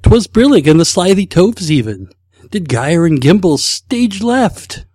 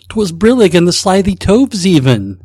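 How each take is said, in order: First: Hammed-up Snagglepuss, louder, slowing at the end; a bad cartoon-lion voice, dragging out stage left; Snagglepuss impression. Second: A self-conscious, hammed-up Snagglepuss, louder; Snagglepuss impression. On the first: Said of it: "I am a complete loss when it comes to impressions". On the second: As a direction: try a bad cartoon-lion voice. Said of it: "In your best Snagglepuss voice".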